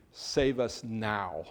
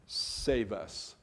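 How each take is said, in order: First: Pleading it slowly as an urgent cry; emphatic plea. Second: Said in the usual way. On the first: Shown as a demonstration. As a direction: save us now, slow and emphatic, each word weighted. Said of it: "It's emphatic". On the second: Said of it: "Hosanna is a word that means".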